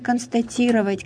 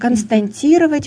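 First: No extra n sound is inserted mid-word. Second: An extra n sound is inserted mid-word. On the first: The speaker calls it right. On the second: The speaker calls it wrong.

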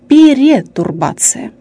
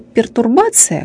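First: An extra e sounds between per and tur. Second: The word has no vowel between per and tur. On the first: The speaker calls it wrong. "говорят «перетурбация»" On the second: The speaker calls it right. "вместо «пертурбация»"

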